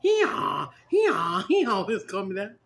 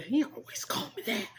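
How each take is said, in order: First: Talking donkey, loud see-sawing bray; braying jackass. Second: Lightly brayed donkey reply, raised in pitch; a hint of hee-haw in the words; toned-down talking donkey, higher voice; jackass voice. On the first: Shown as a demonstration. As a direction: demonstrate a full donkey bray on the words. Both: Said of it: "You have to say it like that, like a jackass".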